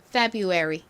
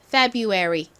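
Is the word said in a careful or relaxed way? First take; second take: relaxed; relaxed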